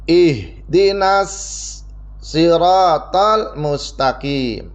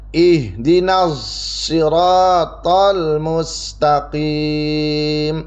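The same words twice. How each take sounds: First: The s in siratal is a plain s sound. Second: The s in siratal sounds close to z. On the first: "sodnya ini diganti dengan sin" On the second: "Shadnya itu antara shad dan za, kayak bunyi huruf za"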